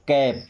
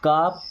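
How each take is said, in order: First: It starts with k and a short 'a' vowel. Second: It starts with k and a long 'aa' vowel. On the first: The speaker calls it right. "क्या हो जाएगा" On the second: The speaker calls it wrong. "इसे काप या साप नहीं पढ़ते हैं"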